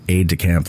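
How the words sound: It is pronounced in an American way. "like every other American would"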